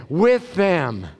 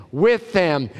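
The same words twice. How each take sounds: The two takes are said the same way.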